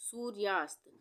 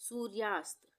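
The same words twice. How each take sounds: The two takes are said the same way.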